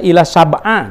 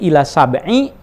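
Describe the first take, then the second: First: The second word ends in an a vowel. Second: The second word ends in an i vowel. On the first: The speaker calls it wrong. "Jangan sampai membaca ila sab'a" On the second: The speaker calls it right. "kalau ada ila itu bacanya i ya"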